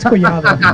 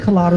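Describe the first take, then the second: First: The middle consonant is a Y-like sound. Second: The middle consonant is a plain L sound. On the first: The true Spanish pronunciation of the name. "but it's Collado" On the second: An anglicized version acceptable for non-Spanish speakers.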